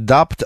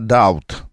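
First: A p sound is heard before the t. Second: No p sound is heard before the t. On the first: The speaker calls it wrong. "Не «дапт»" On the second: The speaker calls it right. "а «даут»"

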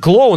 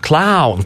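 First: The word is said with a plain Russian 'o'. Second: The word is said with an English-like 'ow' sound. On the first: "не клоун" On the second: "а клаун, потому что он, видимо, большой англичанин"

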